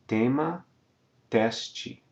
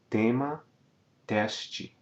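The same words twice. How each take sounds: The two takes are said the same way.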